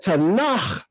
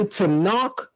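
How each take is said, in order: First: The final consonant is guttural, like Chet. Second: The final consonant is plain, not guttural. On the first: The speaker calls it right. "you're pronouncing the Kaf Sufit in the same way or very similar to how you pronounce the letter Chet, which is a guttural letter" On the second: The speaker calls it wrong. "that won't be perfect biblical Hebrew"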